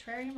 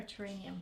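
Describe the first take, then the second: First: Terrarium with an R starting the middle syllable, "tuh-RARE-ee-um". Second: Terrarium with N replacing the second R, "tuh-RAIN-ee-um"; terrarium as "terrainium". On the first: Host asking which word is right, terrarium said "tuh-RARE-ee-um". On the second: Host offering the other option, terrarium said "tuh-RAIN-ee-um". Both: Shown as a demonstration. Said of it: "is it terrarium or terrarium?".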